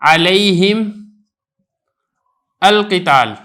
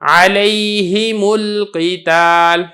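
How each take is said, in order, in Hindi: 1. ये शब्द अलग-अलग बोले जाते हैं, बीच में कोई जोड़ने वाला स्वर नहीं है। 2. ये शब्द 'u' स्वर से जुड़े हैं।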